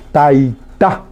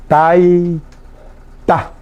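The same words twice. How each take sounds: First: Said in the usual way. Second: "Taita" very slowly, long tai, pause, then ta; syllable by syllable. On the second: Shown as a demonstration. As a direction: dictate "Taita" in two separated pieces. Repeats word slowly for learners. ("Taita" muy despacio, alargando "tai" y separando "ta")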